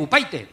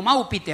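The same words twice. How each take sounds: First: Upaite said with "PIE-teh"; i turned into ay. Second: Maupite said with "PEE-teh". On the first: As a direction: Upaite with mock-English "ai" for i. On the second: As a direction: Maupite with a plain Spanish i. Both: Retold or imitated. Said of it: "la I se pronuncia ay".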